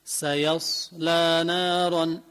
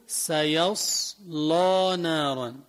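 First: سيصلى drawn out slowly with a thin, light lam. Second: سيصلى with a full, heavy lam and tilted vowel; heavy lam reading. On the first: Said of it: "بنرقق اللام". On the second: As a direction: say سيصلى نارا slowly with a thick lam. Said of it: "بيميلوها للتفخيم". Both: Shown as a demonstration.

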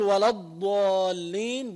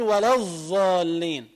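First: ولا الضالين with a true ḍād, slow and clear; correct ḍād. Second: ولا الضالين with ḍād turned into ẓā', sounding ولا الظالين. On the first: Shown as a demonstration. Teacher models the correct ḍād in الضالين. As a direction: say the ḍād properly in الضالين, slowly. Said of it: "بدل ما يقول". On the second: Retold or imitated. Teacher imitates reciters saying ḍād as ẓā'. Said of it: "بيجعلوا الضاد ظاء".

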